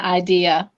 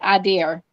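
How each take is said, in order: First: The word ends without any R sound. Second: The word ends with an added R sound. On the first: The speaker calls it right. "ever since then, I now have an idea" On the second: The speaker calls it wrong. "my life I said it"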